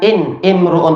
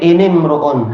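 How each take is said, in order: First: The glottal stop before imruun is pronounced. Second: The glottal stop is dropped and the words link. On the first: The speaker calls it wrong. "Bukan in imruun" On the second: The speaker calls it right. "tapi inimruun. Hamzahnya tak terpakai ketika di tengah"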